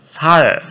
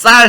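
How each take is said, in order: First: The first s sound is plain and soft. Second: The first s sound is tense and strong. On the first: "쌍시옷 발음은 좀 불편해도 합니다" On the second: "쌀 해봐"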